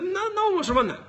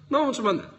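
First: Pitched way up on NO ONE; high, exasperated complaint; exasperated protest. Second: Said in the usual way. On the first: Real, not acted. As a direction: let the voice leap up in protest. Exasperated at media ignoring him.

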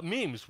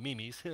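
First: Said in the usual way. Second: "memes" said in two syllables as mee-mees; joke pronunciation. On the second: Shown as a demonstration. Pastor jokingly renames memes for the church, "memes" as mee-mees. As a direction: split "memes" into me-mees for a laugh. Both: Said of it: "or as I like to call 'em".

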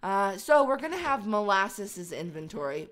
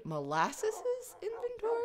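First: Said in the usual way. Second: Molasses' said high and questioning; unsure pronunciation. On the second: Real, not acted. Unsure how to say Molasses', high and questioning. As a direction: try out Molasses' with a rising doubtful tone. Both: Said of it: "I guess that's how you say it".

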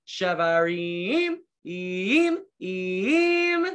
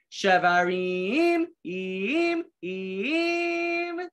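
First: Shevarim then im, im in three short bursts; three short blasts. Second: Shevarim slow, then im, im rising high like a horn; three slow blasts. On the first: Teacher showing kids the shevarim call in three bursts. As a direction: break it into three horn blasts. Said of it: "They sound like this". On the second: Teacher leading children in slow, high shevarim horn blasts. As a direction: stretch it out, then two horn hoots. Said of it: "Try it with me". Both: Shown as a demonstration.

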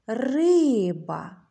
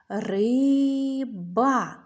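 First: «Риба» with RY stretched and stronger; stressed first syllable. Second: «Риба» as ry, pause, ba; split into syllables. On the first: Teacher asks which syllable is stressed, «Риба» stretched on RY. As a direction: call «Риба», leaning long on the first syllable. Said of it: "А який склад наголошений?". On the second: Teacher helps children count syllables, «Риба» split in two. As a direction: sound out «Риба» in two separate long beats. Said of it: "Скільки складів". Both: Shown as a demonstration.

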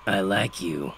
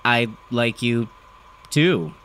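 First: Father's rough voice, mellow and matter-of-fact; understated approval from a gruff dad; gravelly father. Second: Awkward, halting reply with gaps; mildly stammered, uncomfortable answer. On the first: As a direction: say it simply in a worn gravelly voice. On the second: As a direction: hesitate between words, unsure of yourself. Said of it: "I stammered". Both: A narrator's reading.

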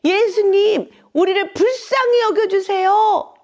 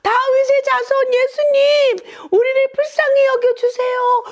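First: High, loud cry for mercy; loud pleading call. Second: Very high, loud desperate plea; even louder shouting. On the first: Blind men begging Jesus for mercy, loud high call. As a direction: call out to be heard over the crowd. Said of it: "큰 소리로 예수님을 부른 거죠". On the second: Blind men defying the crowd to beg Jesus, full high shout. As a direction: cry out at the very top of your range. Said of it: "더욱 큰 소리로 예수님께 외쳤어요". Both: Acted.

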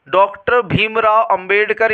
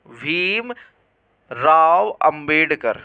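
First: Said in the usual way. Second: Slow dictation. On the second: Real, not acted. Teacher writing out the full name for students, slow dictation. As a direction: stretch Bhimrao Ambedkar out very slowly, word by word.

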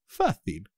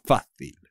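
First: Fácil, fá stressed and falling; FÁ-cil, first syllable strong. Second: Fácil with a strong first syllable fá; stress on FÁ. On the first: (acento en fá de Fácil) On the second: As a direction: punch fá in Fácil. (acento fuerte en fá de Fácil) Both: Shown as a demonstration. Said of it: "Con el acento, ¿eh?".

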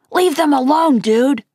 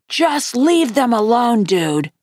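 First: Firm, raised first warning. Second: Slow, calm and firm, dropping at the end; calm repeat. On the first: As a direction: stand up to the bully, loud and firm. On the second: Amos to the boys bothering his friends, calm and slow. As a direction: repeat it calmly and unhurriedly. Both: A narrator's reading. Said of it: "Amos repeated calmly".

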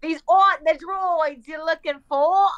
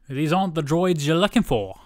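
First: Slow, hammed-up British accent; exaggerated British accent. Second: Put-on British accent. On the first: Echoing friend's film quote, slow exaggerated British accent. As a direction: stretch the line out in broad mock British. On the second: Trading British accent film quote.

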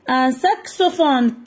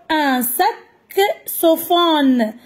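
First: Said in the usual way. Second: Saxophone drawn out slowly syllable by syllable. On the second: Shown as a demonstration. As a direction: stretch out saxophone so every syllable is heard. (saxophone lentement, syllabe par syllabe)

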